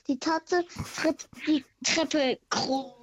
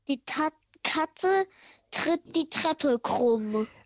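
First: It is said fast. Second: It is said slowly.

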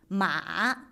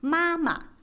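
First: The pitch dips low and rises. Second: The pitch stays high and level. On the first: It means horse. "Ma ist 3. Ton" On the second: It means mother. "Der 1. ist Mama"

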